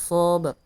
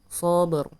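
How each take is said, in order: No difference in how they are said.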